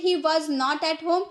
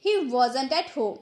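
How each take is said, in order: First: Said in the usual way. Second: "wasn't" run together as WOZ-unt; contracted wasn't. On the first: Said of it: "normal English में हम बोलते हैं". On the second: Shown as a demonstration. Teacher using the contraction after normal English, joined-up "wasn't". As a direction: join was and not into "wasn't". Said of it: "contraction का use करके हम बोलेंगे".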